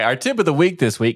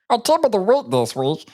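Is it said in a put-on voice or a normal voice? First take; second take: normal; put-on. First: It is said in his normal voice. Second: It is said in a put-on voice.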